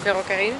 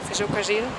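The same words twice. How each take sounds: First: The double R is a rolled trill. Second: The double R sounds like a j. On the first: This is the general pronunciation, not the local one. "in Santiago you wouldn't say ferrocarril" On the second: This is how people in Santiago say it. "you would say ferrocarril, because they have an accent, and double R is j"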